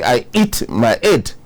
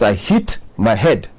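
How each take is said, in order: First: The h sound at the start of hit is dropped. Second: The h sound at the start of hit is kept. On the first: The speaker calls it wrong. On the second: The speaker calls it right.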